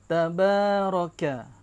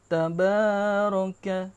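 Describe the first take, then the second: First: The long vowel is held for two beats. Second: The long vowel is held for three beats. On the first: The speaker calls it right. "Kena betul-betul dua harakat" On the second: The speaker calls it wrong. "itu panjang. Tiga harakat sudah tuh"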